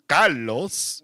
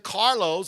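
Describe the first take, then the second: First: The name is said with a Spanish accent. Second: The name is said with an English accent. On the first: "I was speaking to Carlos" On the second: "I wasn't speaking to Carlos"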